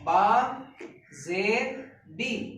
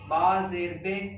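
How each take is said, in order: First: The syllable ends in an 'ee' vowel. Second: The syllable ends in an 'ay' vowel. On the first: The speaker calls it right. "आवाज नीचे की तरफ सीधी जाएगी" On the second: The speaker calls it wrong. "ये गलत है"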